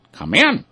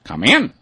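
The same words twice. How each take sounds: First: Higher quacking duck voice. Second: High quacking duck voice. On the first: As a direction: call it out higher like a welcoming duck. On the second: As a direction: call it out like a welcoming duck. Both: A narrator's reading. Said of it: "the ducks all quacked".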